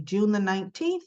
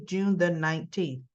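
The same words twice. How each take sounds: First: June the nineteenth said with a questioning rise at the end; rising tune. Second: June the nineteenth said lower with a firm final fall; falling tune. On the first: Announcing the recap date with an upbeat rising end. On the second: Repeating the recap date with a closing fall. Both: Shown as a demonstration. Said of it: "Monday, June the nineteenth".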